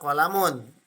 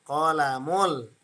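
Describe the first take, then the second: First: Qalamun ending in a sounded -un; with tanwin. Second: Qalamul drawn out slowly, no final -un; tanwin dropped. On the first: Teacher shows students the original form, with tanwin. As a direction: say qalamun with the final n. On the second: Teacher shows the mudhaf form, tanwin dropped. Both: Shown as a demonstration. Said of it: "dibuang tanwinnya".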